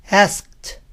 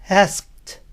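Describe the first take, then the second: No difference in how they are said.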